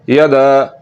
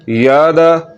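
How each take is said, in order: First: The first vowel is short. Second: The first vowel is drawn out long. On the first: The speaker calls it right. "इसको लंबा नहीं करना है" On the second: The speaker calls it wrong. "अगर पढ़ेंगे यादा यादा यादा ... जो कि गलत है"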